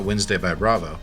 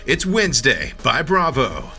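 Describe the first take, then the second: First: Bravo is said flatly, without extra energy. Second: Bravo is punched with a long, energetic O.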